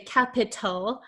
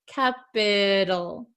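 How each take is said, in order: First: The middle consonant is a crisp, true T. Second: The middle consonant is a soft flapped D. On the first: The speaker calls it wrong. "like a true T sound, like t, t, t. We're not going to say capital" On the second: The speaker calls it right. "a flap T, which sounds like a soft D"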